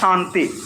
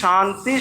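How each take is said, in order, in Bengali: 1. এটি তালব্য 'sh' ধ্বনি দিয়ে শুরু হয়। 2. এটি তালব্য 'sh' ধ্বনি দিয়ে শুরু হয়।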